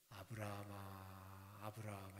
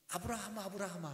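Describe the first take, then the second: First: It is called slowly and calmly. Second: It is called fast, loud and urgent.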